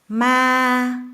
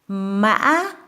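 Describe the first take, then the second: First: The pitch stays flat and level. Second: The pitch rises from low to high with a break. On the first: It means ghost. "flat, level tone" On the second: It means horse. "low tone to high tone with a break in between"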